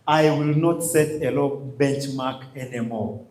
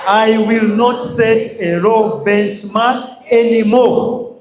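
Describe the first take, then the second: First: Quiet pledge. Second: Slow, loud call-and-response chant; chanted, lead the hall in a slow, loud pledge; group chant. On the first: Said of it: "hit on our chests and tell ourselves". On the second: Trainer leading the audience in a slow, loud chanted vow. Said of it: "I want us to repeat together". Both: Shown as a demonstration.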